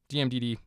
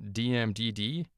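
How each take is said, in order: First: D M D D rattled off quickly; said really fast. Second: Said in the usual way. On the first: Shown as a demonstration. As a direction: run the letters D M D D together fast. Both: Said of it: "if you say it really fast".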